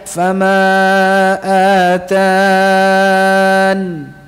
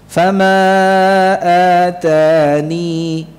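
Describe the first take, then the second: First: The last word ends with a bare n. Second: The last word ends with a 'ni' sound. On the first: "dalam keadaan waqaf tanpa ya" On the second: "menetapkan ya-nya sakinatan dalam keadaan sukun"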